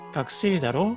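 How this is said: The pitch rises at the end. The speaker checks if their information is correct. "끝을 올려주면은"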